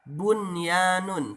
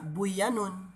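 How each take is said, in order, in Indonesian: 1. Bunyi n diucapkan dengan jelas dan terpisah. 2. Bunyi n menyatu dengan bunyi berikutnya. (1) "dibacanya jelas idhar" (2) "tidak dibaca buyanun"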